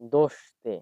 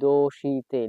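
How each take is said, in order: First: No vowel is heard between 'sh' and 'te'. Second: A clear 'i' vowel is heard after 'sh'. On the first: The speaker calls it right. "এটা হবে হচ্ছে দোষতে" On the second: The speaker calls it wrong. "আমি কিন্তু উচ্চারণ করতেছি দোষিতে"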